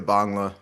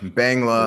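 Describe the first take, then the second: First: The word is said with native Bengali vowels. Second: The word is said with anglicized vowels. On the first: This is how the word is actually said. The speaker calls it right. "but it's really Bangla" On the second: This is how most people say it. The speaker calls it wrong. "Everyone says uh Bangla"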